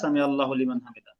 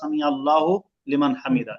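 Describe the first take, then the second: First: The words are said quickly and run together. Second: The words are said carefully and kept separate. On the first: "যখন দ্রুত বলা হয় তখন শোনা যায়" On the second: "কিন্তু উচ্চারণটা ... এরকমই"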